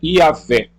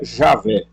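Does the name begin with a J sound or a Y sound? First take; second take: Y sound; J sound. First: The name begins with a Y sound. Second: The name begins with a J sound.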